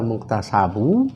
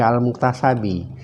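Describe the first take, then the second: First: The word ends with an 'u' vowel. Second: The word ends with an 'i' vowel. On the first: The speaker calls it right. "Itu dibaca al-muktasabu" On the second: The speaker calls it wrong. "jangan dibaca al-muktasabi"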